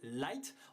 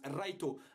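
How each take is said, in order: First: It is said with an ordinary English pronunciation. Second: It is said with a Japanese-style pronunciation. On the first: "qui s'appelle" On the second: "en japonais, son nom se prononce"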